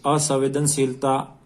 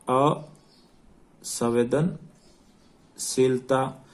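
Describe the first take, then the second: First: Said in the usual way. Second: Very slow dictation, pausing between the parts of असंवेदनशीलता; broken into parts. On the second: Shown as a demonstration. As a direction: draw out असंवेदनशीलता in separated chunks, अ, संवेदन, शीलता. Teacher repeats term slowly for dictation.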